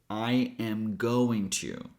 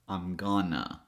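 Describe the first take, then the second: First: Every word is said in full. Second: Going to is reduced to gonna. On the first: "the longest one"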